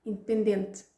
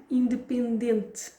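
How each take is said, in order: First: "independente" quick with the last vowels dropped; clipped native "independente"; native reduction. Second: "independente" drawn out, every syllable; careful learner "independente"; slow full form. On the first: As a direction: swallow the end of "independente". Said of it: "reduced native take". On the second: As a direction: stretch "independente" slowly and clearly. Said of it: "slow full take then reduced". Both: Shown as a demonstration.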